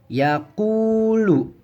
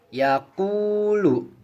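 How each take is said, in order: Both takes have the same delivery.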